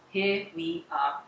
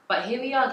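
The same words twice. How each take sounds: First: Slow, soft "Here we are"; resigned. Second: Said in the usual way. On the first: Real, not acted. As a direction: let "Here we are" sink slowly. Resigned repeat of phrase.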